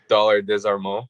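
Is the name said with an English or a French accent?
English. The name is said with an English accent. "in English"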